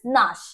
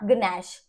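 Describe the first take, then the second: First: The word begins with n, g silent. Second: The word begins with a sounded g. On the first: The speaker calls it right. "This is नाश" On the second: The speaker calls it wrong. "Not गनैश"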